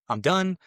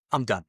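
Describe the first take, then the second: First: Emphatic realization. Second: Said in the usual way. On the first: Retold or imitated. Retelling his turning point, a higher emphatic "I'm done". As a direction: throw "done" up high like a vow. Realizing he must quit drugs.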